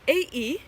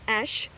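First: It is read out as two separate letters. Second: It is said as the single word ash. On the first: The speaker calls it wrong. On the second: The speaker calls it right.

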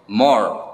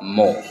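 First: It is said in an American accent. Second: It is said in a British accent. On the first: "American English yang dibaca more" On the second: "di British English ini dibaca more"

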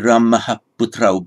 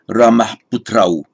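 First: An echo vowel follows the final h sound. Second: No echo vowel follows the final h sound. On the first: The word is pronounced as if in isolation. The speaker calls it wrong. "you wouldn't get that shadow a. It wouldn't be" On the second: The word is pronounced as in running speech. The speaker calls it right. "but just"

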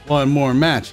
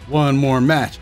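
No difference in how they are said.

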